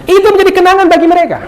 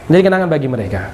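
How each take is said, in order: First: Much higher, louder, fast; emphatic. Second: Said in the usual way. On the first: Shown as a demonstration. Preacher stressing the point to the congregation, high and loud. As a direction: drive the whole line home. Emphatic repeat of key line.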